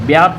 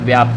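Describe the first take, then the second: First: The word begins with a b sound. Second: The word begins with a v sound. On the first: The speaker calls it wrong. "आधा वा जो है इसकी जगह ये बा कर देते हैं, तो ये गलत हो जाता है" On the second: The speaker calls it right. "व्याप्त होता है"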